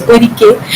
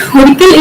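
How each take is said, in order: First: Orike with final l dropped; Kartanadan dialect form. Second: Orikal closed with a final l; standard Malayalam form. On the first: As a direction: end Orike on an open vowel. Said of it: "word final lateral le gets deleted". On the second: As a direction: sound the l ending Orikal. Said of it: "in standard Malayalam becomes". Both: Shown as a demonstration.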